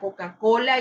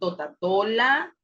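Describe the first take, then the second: First: The k sounds are pronounced as k. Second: The k sounds are replaced by t. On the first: The speaker calls it right. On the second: The speaker calls it wrong.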